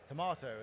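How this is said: It is said in a British accent.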